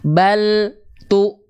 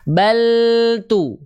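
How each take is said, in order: First: There is a break between bal and tu. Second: The word flows without a break. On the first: The speaker calls it wrong. "Ada ada jeda di sana" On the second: The speaker calls it right. "langsung di saat yang bersamaan lafalkan huruf berikutnya"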